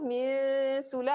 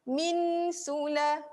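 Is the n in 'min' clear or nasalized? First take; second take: nasalized; clear. First: The n is hidden in a nasal hum through the nose. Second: The n is clear, with the tongue touching the gums. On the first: The speaker calls it right. "kita rasa dekat hidung min sula, ah, yang tu dengung" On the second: The speaker calls it wrong. "yang tu terus masuk, itu terus bunyi jelas"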